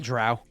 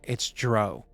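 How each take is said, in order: First: The vowel rhymes with 'cow'. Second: The vowel rhymes with 'go'. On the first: The speaker calls it right. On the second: The speaker calls it wrong.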